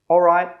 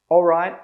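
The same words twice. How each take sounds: Both takes have the same delivery.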